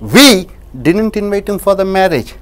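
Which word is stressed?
we. The word 'we' carries the stress. Someone else invited him. "யாரோ ஒருத்தர் அழைத்தார்"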